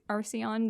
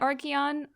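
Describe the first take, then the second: First: The consonant after 'Ar' sounds like S. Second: The consonant after 'Ar' sounds like K. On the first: This is how some other people say the name. "some people say Arce- Arceon" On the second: This is how the speaker personally says the name. "I've always said Archeon"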